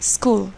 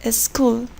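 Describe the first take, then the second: First: The word begins directly with the S sound. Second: An extra E sound comes before the S. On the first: The speaker calls it right. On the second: The speaker calls it wrong. "we say"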